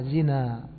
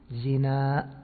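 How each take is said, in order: First: The word ends in a shortened plain vowel. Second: The word ends in a long vowel and glottal stop. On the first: This is how the people of Hijaz say it. "يجعلونه بالقصر الهمزة بالألف المقصورة" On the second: This is how the Tamim tribe says it. "يجعلونه بالهمزة الممدودة"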